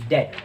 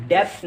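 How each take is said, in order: First: "डेट" with silent b; correct pronunciation. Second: "डेब्ट" with the b sounded; wrong pronunciation. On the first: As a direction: say "डेट" as det. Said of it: "इसमें जो बी होता है". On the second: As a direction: say "डेब्ट" with an audible b before t. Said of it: "डेब्ट नहीं". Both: Shown as a demonstration.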